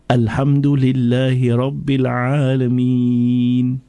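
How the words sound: Each verse ends long, with a pause. This is how the Prophet recited. The speaker calls it right. "recite every verse with a pause in between... he prolonged, he pulled it. Like I said"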